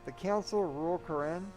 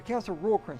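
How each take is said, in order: First: The voice rises at the end like a question. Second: The voice falls at the end like a statement.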